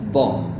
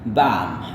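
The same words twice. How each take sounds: First: The vowel is short, in a British accent. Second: The vowel is long, in an American accent. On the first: "ini British, jadi singkat" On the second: "gaya Amerika, bunyi A yang panjang seperti car"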